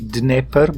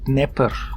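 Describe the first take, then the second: First: The word starts with a d sound. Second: The word starts with an n sound. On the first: The speaker calls it right. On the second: The speaker calls it wrong.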